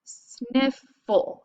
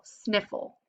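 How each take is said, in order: First: Sniffle drawn out slowly; slow sounding out. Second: Said in the usual way. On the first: Shown as a demonstration. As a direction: stretch out sniffle for the class. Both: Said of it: "we do the break between them".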